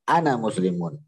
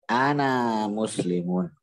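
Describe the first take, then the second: First: The vowel of the first word is kept short. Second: The vowel of the first word is drawn out long. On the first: The speaker calls it right. "disambung dengan muslimun setelahnya" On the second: The speaker calls it wrong. "engkau jangan mengatakan ana muslimun"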